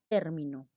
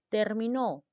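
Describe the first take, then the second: First: The stress is on the first syllable. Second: The stress is on the last syllable. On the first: A word or expression. "un término es una palabra" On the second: It was finished, in the past tense. "Estamos hablando de un verbo en pasado"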